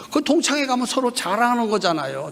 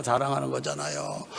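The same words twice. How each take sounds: First: Said in the usual way. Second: Much softer and lower, a falling aside; soft echo. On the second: Acted. Preacher echoing his own line to the congregation, softly. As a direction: drop the voice to repeat it quietly.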